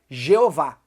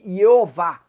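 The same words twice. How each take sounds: First: The name is said in a Latinized form. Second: The name is said in a Hebrew-like form.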